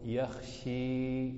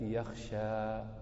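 First: The final vowel is a clear i sound. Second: The final vowel is a clear a sound. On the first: "ولا تقول يخشي بالكسرة" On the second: "فلا تقول عند الإمالة يخشى بالفتحة"

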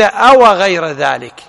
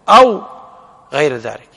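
First: The first word is said with a vowel after w. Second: The first word ends in w with no vowel. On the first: It asks a question: is it something else? The speaker calls it wrong. "فيكون الهمزة همزة الاستفهام والواو" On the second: It offers a choice: ask for something else. The speaker calls it right. "الأضبط بسكون الواو"

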